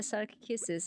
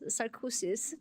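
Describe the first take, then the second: First: The ending sounds like 'kisses'. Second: The ending sounds like 'osis'. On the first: The speaker calls it right. "I'll say sarc kisses" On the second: The speaker calls it wrong. "I just mispronounced that"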